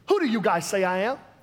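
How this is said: It is said in a West Coast accent.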